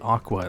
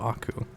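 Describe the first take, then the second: First: The name ends with a 'kwa' sound. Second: The name ends with a 'koo' sound. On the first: The speaker calls it wrong. "lots of people will probably say Aqua instead of Aku" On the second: The speaker calls it right. "instead of Aku"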